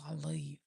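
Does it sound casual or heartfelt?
casual. It is said casually, without feeling.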